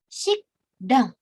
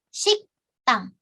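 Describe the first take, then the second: First: The second syllable starts with a plain d. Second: The second syllable starts with a tense t. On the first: The speaker calls it wrong. "Dia bukan shikdang" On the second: The speaker calls it right. "Tapi jadi shiktang"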